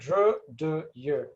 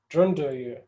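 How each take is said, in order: First: The sounds are kept separate with no added n. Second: The sounds blend together with an added n. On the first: "to clarify them from each other, you would say" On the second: "this part will bleed into each other... adding a na sound"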